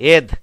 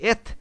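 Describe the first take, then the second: First: The final sound is a soft d-like sound. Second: The final sound is a breathy t-like sound. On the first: "প্রথমে দ দিয়ে করি" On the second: "এবার থ দিয়ে পড়বো"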